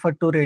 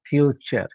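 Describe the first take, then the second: First: The ending is said as a spelled-out 'ture'. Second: The ending is said as a 'cher' sound. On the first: The speaker calls it wrong. "नटुरे फटुरे नाही म्हणायचं" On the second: The speaker calls it right. "यू आर यू असेल तर चर म्हणायचं"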